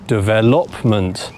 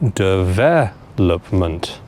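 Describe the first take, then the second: First: The stress is on the third syllable. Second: The stress is on the second syllable. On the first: The speaker calls it wrong. "put it on the third syllable" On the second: The speaker calls it right. "the stress on this word needs to go on the second syllable"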